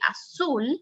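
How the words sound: The 'z' is said like an S sound. This is how it is said in Latin America. "In Latin America, you will say"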